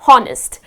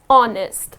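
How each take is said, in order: First: The word begins with an H sound. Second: The word begins with a vowel sound. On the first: The speaker calls it wrong. "many people pronounce it as honest" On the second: The speaker calls it right. "You need not pronounce this H here. The correct pronunciation of this word is honest"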